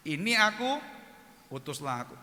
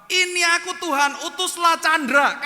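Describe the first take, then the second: First: Said in the usual way. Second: High, loud shouted prayer; mock fervent prayer. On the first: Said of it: "Bunyinya apa?". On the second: Imitating friends praying to send Chandra instead, loud hammed-up shout. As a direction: belt it out, hammed-up and insistent. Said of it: "Tapi mereka berdoa apa?".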